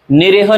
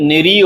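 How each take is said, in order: First: निरीह with e in the middle, ni-reh; wrong pronunciation. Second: निरीह with long ee, ni-reeh; correct pronunciation. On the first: Teacher showing the mistake, निरीह said as ni-reh. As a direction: say निरीह as nireha. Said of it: "नहीं है". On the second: Teacher giving the right word, निरीह said as ni-reeh. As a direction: lengthen the ee in निरीह. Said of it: "निरीह होता है". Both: Shown as a demonstration.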